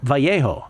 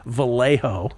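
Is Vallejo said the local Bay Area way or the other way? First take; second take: other way; Bay Area. First: It is said without the local Bay Area pronunciation. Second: It is said with the local Bay Area pronunciation. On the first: This is how the person names himself. "I hope you pronounced it that way" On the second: This is how locals say the place name. "our Bay Area horrible pronunciation of Vallejo would be"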